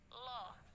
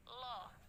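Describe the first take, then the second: First: A heavy, thick L with rounded lips. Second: The same.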